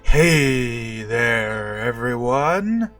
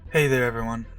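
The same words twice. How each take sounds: First: The greeting is lively and dramatic. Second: The greeting is flat and undramatic.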